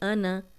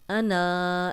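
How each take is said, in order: First: The final vowel is kept short. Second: The final vowel is drawn out long. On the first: The speaker calls it right. "ये सिर्फ नून की ज़बर के साथ पढ़ा जाएगा" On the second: The speaker calls it wrong. "ऐसे नहीं पढ़ेंगे"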